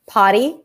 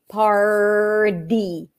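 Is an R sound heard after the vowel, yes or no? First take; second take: no; yes. First: The word is said with no R sound after the vowel. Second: The word is said with a held R sound after the vowel. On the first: "even if you drop the R" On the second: "Hold out the R too"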